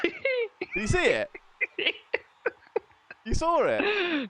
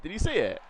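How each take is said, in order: First: Much higher, slow excited questions; eager. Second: Said in the usual way. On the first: Real, not acted. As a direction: drag it out with glee. Eager checking about tumbleweed.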